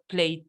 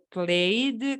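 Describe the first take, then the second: First: The word ends with a t sound. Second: The word ends with a d sound. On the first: The speaker calls it wrong. "con T" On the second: The speaker calls it right. "con D"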